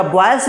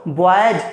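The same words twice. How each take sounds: First: बॉयज said quickly as "bwais", with S; wrong S ending. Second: बॉयज said "bo-aa-yaj", lower; J ending. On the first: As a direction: end बॉयज on S instead of J. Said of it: "क्या बॉयज बोलते हैं क्या?". (बॉयज को 'बॉयस' बोलें) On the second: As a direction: stretch बॉयज out and end it on J. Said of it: "No, no, no". (बॉयज के अंत में साफ़ 'ज') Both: Shown as a demonstration.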